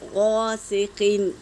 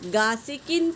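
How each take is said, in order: First: The first consonant is heavy and full. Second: The first consonant is light and thin. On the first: The speaker calls it right. "गैन को पुर पढ़ेंगे" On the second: The speaker calls it wrong. "ये गलत है"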